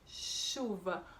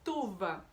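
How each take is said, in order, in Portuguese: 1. A palavra começa com um som SH. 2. A palavra começa com um som T. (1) "o som inicial é sh" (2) "a criança fala tuva"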